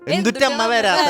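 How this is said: It is said in the Thrissur dialect.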